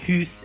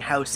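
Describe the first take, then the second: First: The vowel sounds like 'oo' in goose. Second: The vowel sounds like 'ow' in cow. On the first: "I usually say hoose" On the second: "I was trying really hard to make sure I was saying house"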